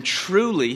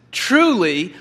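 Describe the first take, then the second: First: Said in the usual way. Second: Truly said louder, leaned on hard; emphatic Truly. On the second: Shown as a demonstration. Preacher showing how Jesus stresses Truly, louder and emphatic. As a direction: punch the word Truly for emphasis. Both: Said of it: "this is for emphasis".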